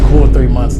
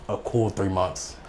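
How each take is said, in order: First: "Cool three months" repeated louder, punched; stressing how long the grudge lasted, punched; stressed repeat. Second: Said in the usual way. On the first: Shown as a demonstration. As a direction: hit "Cool" hard on the repeat.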